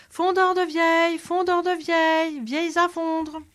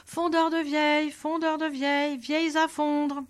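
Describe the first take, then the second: First: High, loud, strained hawker's yell; full shout. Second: Higher street hawker's cry, moderately raised; old man calls his trade across the town square; calling out. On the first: Proud soldier bellows his new trade down an alley, loud and high. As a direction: bellow it down the alley, chest puffed out. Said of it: "se mit à crier". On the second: Old peddler calls his trade to the town square, a raised cry. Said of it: "se mit à crier sur la place". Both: Acted.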